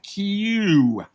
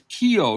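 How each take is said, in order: First: The name sounds like the one-syllable letter Q. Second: The name is said as two syllables. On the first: The speaker calls it wrong. "not Q" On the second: The speaker calls it right. "Riley's last name is Keogh"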